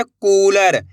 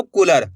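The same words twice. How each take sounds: First: कूलर with the कू stretched long; slow model reading of कूलर, long first vowel; drawn-out vowel. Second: कूलर said quickly with a short u; quick कूलर, first vowel not held; short vowel misreading. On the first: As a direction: hold the oo in कूलर. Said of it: "कैसे पढ़ेंगे?". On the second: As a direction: cut the oo of कूलर short, as in kular. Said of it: "ऐसे नहीं पढ़ना आपको". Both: Shown as a demonstration.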